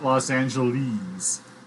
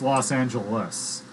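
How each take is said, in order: First: The last syllable rhymes with 'sleaze'. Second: The last syllable does not rhyme with 'sleaze'. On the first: The speaker calls it wrong. "It's not Los Angeles. C does not, ... does not rhyme with sleaze" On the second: The speaker calls it right. "It's Los Angeles"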